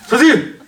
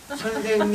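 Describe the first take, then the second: First: It is said loudly with a raised voice. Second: It is said softly and gently. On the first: The other person is addressed harshly. The speaker calls it wrong. "이게 아니라" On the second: The other person is addressed politely without offense. The speaker calls it right. "부드럽게, 부드럽게. 일단 선생님 부를 때 선생님 이렇게"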